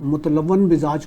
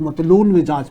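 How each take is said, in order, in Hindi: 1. पहला शब्द 'mutalawwan' की तरह बोला जाता है। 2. पहला शब्द 'matloon' की तरह बोला जाता है।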